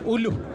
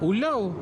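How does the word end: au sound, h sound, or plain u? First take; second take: h sound; au sound. First: It ends with a final h sound. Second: It ends in an au diphthong. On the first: This is how other people say it. "Ada yang juga sebut uluh" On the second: This is how one village says it. "ada macam kampung kamai ni sebut ulau"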